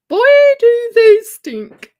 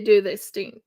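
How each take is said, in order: First: Loud exaggerated. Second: Said in the usual way. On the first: Exaggerating koala smell.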